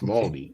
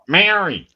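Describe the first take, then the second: First: It is said softly, without an Australian accent. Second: It is said with a broad Australian accent. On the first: The speaker calls it right. "you have to be very soft when you pronounce it" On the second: The speaker calls it wrong. "not Maori"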